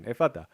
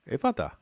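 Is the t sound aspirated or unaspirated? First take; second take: unaspirated; aspirated. First: The t is released without a puff of air. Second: The t is released with a puff of air.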